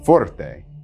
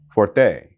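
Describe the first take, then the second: First: The stress is on the first syllable. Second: The stress is on the second syllable. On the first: The speaker calls it right. "It's pronounced forte" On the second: The speaker calls it wrong. "please don't place the stress on the second syllable"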